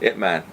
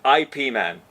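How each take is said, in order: First: The first part is said as one syllable. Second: The first part is spelled out as two letters.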